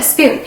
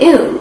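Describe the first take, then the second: First: The word is said with its full sp beginning. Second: The word is said without its starting sp sounds. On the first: The speaker calls it right. "you want a spoon" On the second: The speaker calls it wrong. "she would just forget the S and say poon or oon"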